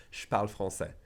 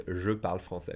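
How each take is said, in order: First: "Je parle" contracted to "shparle"; everyday French "Je parle", je reduced to sh; colloquial blend. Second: Said in the usual way. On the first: Shown as a demonstration. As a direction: drop the E, saying "shparle" for "Je parle". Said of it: "They say". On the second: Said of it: "Don't expect them to say".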